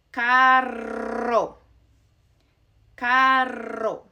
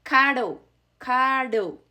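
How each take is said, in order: First: Carro with a long trilled rr; strong Spanish rolled R. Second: Caro with one light tap like d; single tap R. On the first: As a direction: roll the rr in carro hard. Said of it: "two R's together ... strong R sound". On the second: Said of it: "that sounds". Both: Shown as a demonstration.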